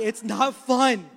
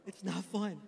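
First: Loud emphatic. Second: Soft repeat. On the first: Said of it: "repeated loud then soft". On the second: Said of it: "repeated softer". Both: Real, not acted.

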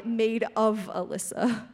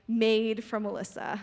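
First: OF marked as the key word; stress on OF. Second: FROM marked as the key word; stress on FROM. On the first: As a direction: point up OF in the phrase. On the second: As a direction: point up FROM in the phrase. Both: Shown as a demonstration. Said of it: "Those are two different things".

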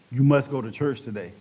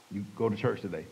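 First: Mildly stern, firm command. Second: Low, soft instruction; a quiet nudge inside the mind; voice of conscience. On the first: God repeating the order to a reluctant man, mildly stern command. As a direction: insist firmly, without shouting. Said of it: "Then a stern voice said". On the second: God speaking to his conscience, low quiet prompting. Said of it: "he spoke to my conscience". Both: Retold or imitated.

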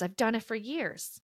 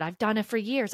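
First: Quiet rueful repeat. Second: Said in the usual way. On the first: Real, not acted. Softer repeated admission.

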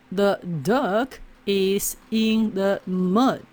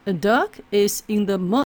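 First: Slow, word-by-word read; slow careful reading. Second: Quick, natural-speed read; same sentence read quickly; fast natural reading. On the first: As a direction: read it slowly and clearly. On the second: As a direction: say it fast like real speech. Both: Shown as a demonstration.

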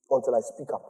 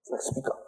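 First: Said in the usual way. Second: Whispered. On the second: Real, not acted. Preacher telling the church about holding back a prophecy, whispered. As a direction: echo the phrase in a soft whisper. Repeats phrase, second time whispered.

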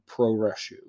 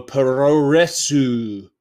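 First: Said in the usual way. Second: Puroresu slowed and spaced out, each syllable pronounced Japanese-style, pu-ro-re-su; careful Japanese word. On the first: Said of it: "It's P U R O R E S U". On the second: Shown as a demonstration. Streamer reading the Japanese word Puroresu carefully off the page. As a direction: draw out Puroresu syllable by syllable, the end as su. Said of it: "that was not me doing a racist accent".

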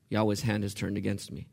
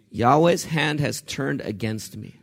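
First: "Yahweh's hand has turned against me" repeated softer and lower. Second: "Yahweh's hand has turned against me" spoken slowly, each word weighed; slow weighty read. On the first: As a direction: say it again quietly, letting it sink in. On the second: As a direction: lay it down slowly and heavily. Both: Shown as a demonstration. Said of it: "There's theology there".

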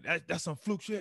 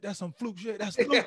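First: Higher, scoffing dismissal; mocking trash talk. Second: High, loud scoffing; mocking yell. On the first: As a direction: sneer it off as luck. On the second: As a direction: ramp up into a jeering yell. Bart's trash talk escalates.

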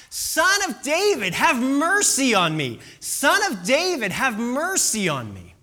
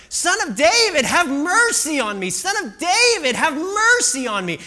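First: High, loud pleading call; acted shout. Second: High, very loud insistent pleading; louder acted shout. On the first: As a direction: call out for mercy over a crowd. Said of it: "he begins to shout". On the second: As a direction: shout louder to be heard over everyone. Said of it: "the shouts grow louder and louder".

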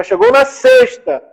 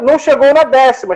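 First: "sexta" lifted much higher and slowed; stress on sexta. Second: Said in the usual way. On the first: Shown as a demonstration. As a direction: lean hard on "sexta", drawn out. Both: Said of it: "João pegou a sexta".

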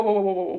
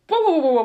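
First: Said in the usual way. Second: High, loud Pharaoh whoas; alarmed whoas. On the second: Retold or imitated. Pharaoh halting his officials, with loud high alarm. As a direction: stop everything, loudly and high.

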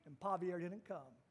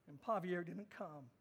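Both takes have the same delivery.

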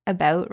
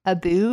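First: Said in the usual way. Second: "a boot" said as two words, boot rhyming with hoot; Canadian-style "a boot" for about. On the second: Shown as a demonstration. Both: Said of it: "Apparently I say about wrong".

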